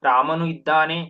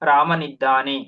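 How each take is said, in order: First: A short pause separates the two words. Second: The words run together into one word. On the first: There is no close contact between the words. "ಇವೆರಡರ ಮಧ್ಯೆ ನಾವು ಒಂದು ಚಿಕ್ಕ ವಿರಾಮ ಕೊಡ್ತೀವಿ" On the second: The words are in close contact and merge. "ವಿರಾಮ ಕೊಡ್ದಲೆ ಹೇಳಿದಾಗ ರಾಮನಿದ್ದಾನೆ"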